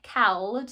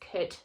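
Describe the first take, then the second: First: The L is sounded, matching the spelling. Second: The L is silent, as normally spoken. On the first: It helps remember the spelling. "you can say it how it looks" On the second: This is how the word is really said. "I never actually say it like that because it's could"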